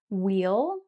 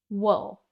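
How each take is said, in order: First: It has a long 'ee' vowel, like wheel. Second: It has a short schwa-like vowel, like wool. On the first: "Wheel is what you will have been taught" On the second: "in rapid speech, myself and native speakers will say wool"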